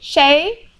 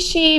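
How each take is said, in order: First: The vowel is an ay sound. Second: The vowel is a long ee sound.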